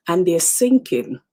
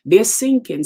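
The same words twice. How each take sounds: First: Said in the usual way. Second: "sinking" hit hard and louder, falling at the end; louder emphatic repeat. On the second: Real, not acted. Preacher repeats to the congregation, louder and emphatic. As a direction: drive the word "sinking" home.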